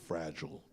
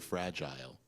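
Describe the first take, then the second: First: The word is said in an American way. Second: The word is said in a non-American way. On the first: "we say fragile" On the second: "we don't say fragile"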